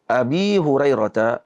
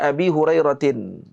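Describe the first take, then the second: First: The name ends without any added -n sound. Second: The name ends with an added -tin sound. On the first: This is the well-known form, read as non-declinable. "yang terkenal di kalangan para muhaddisin ... dibaca dengan mamnu' min as-sarf" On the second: This is the original, fully declined form. "Asalnya dibaca dengan Abi Hurairatin"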